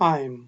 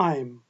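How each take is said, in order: Both takes have the same delivery.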